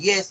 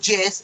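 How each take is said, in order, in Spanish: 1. La palabra empieza con sonido 'y', como en 'yet'. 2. La palabra empieza con sonido 'j', como en 'jam'. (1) "en lugar de yes" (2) "utilizamos la Y como el sonido que se hace de la J en inglés"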